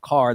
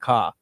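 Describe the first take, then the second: First: The final R sound is pronounced. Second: The final R sound is dropped. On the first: "instead of car" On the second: "they dropped the R sound"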